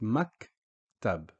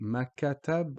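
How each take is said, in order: First: The K stops with no vowel after it. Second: An 'a' vowel is inserted after the K. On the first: The speaker calls it right. "it's just maktab" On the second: The speaker calls it wrong. "we don't actually say makatab"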